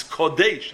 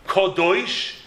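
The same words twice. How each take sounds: First: "Kodesh" with an ay in the last syllable; without the Vav. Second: "Kodosh" with an oy in the last syllable; with the Vav. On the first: Showing the word minus its Vav, "Kodesh" with ay. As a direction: say "Kodesh" ending in -daysh. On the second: Showing the word with its Vav, "Kodosh" with oy. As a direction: say "Kodosh" ending in -doish. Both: Shown as a demonstration. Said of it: "You take the Vav out".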